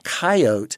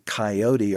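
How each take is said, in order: First: The word is said with two syllables. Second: The word is said with three syllables. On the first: "they shortened it to coyote" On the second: "this three-syllable coyote"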